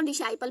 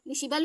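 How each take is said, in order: First: डिसाइपल, middle syllable like "shy"; long "ai" variant. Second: डिसिपल, middle syllable like "shi", not "shai"; short-i variant. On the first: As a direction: say डिसाइपल with "ai" as in "eye". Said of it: "डिसाइपल भी बोलते हैं". (डिसाइपल, बीच में "आइ" की आवाज़ के साथ) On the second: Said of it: "डिसिपल भी बोलते हैं और डिसाइपल भी". (डिसिपल, बीच में छोटी इ के साथ) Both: Shown as a demonstration.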